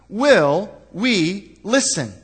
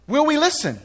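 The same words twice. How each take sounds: First: Will we listen drawn out slow, weighed word by word; slow searching question. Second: Will we listen thrown up high and sharp; pointed repeat. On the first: Pastor putting the morning's question to the church, slow and weighty. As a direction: let the question hang, slowly. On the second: Pastor repeating his challenge to the congregation, high and pointed. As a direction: fire the question back at them high. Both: Shown as a demonstration. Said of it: "See, the question is".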